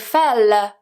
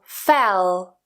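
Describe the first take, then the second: First: The final L is light and released. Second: The final L is dark and unreleased. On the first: The speaker calls it wrong. "I don't say fell" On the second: The speaker calls it right. "the second one is what's called a dark L"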